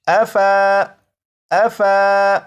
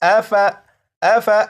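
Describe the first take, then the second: First: The extra alif is sounded as a long vowel. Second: The extra alif is silent, so the vowel stays short. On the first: The speaker calls it wrong. "यहाँ पर इसे इस तरह से नहीं पढ़ेंगे" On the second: The speaker calls it right. "बल्कि"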